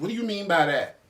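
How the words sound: It is asked with a sharp, attitude-filled tone.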